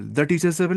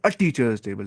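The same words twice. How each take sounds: First: The teacher's table said lightly, the quickly; the said as the rejected option. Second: A stretched and stressed. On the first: Teacher contrasting a with the, rejected version. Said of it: "नहीं". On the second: Teacher contrasting a with the, a stressed. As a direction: lean on the a in a teacher's table. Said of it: "the teacher's table नहीं". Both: Shown as a demonstration.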